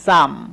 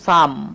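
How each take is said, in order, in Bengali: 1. স্বরধ্বনিটি 'a' ধ্বনির মতো উচ্চারিত হয়। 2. স্বরধ্বনিটি 'a' ধ্বনির মতো উচ্চারিত হয়।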